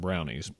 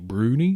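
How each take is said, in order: First: The first vowel sounds like the one in 'cow'. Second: The first vowel sounds like the one in 'moon'. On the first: This is how most people say it. The speaker calls it wrong. "ninety percent of whoever talks about them calls them brownies" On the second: This is the proper, originally Scottish pronunciation. The speaker calls it right. "the pronunciation should be brunies"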